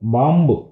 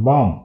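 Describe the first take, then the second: First: The word ends with an added vowel sound. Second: The word ends on a consonant sound. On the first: The speaker calls it wrong. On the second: The speaker calls it right.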